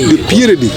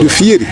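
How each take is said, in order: First: The name is said with a p sound. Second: The name is said with an f sound. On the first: This is how outsiders to the group came to say it. The speaker calls it wrong. "c'est une transformation de nous" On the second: This is the original form of the name. The speaker calls it right. "normalement on devait prononcer de Fieri"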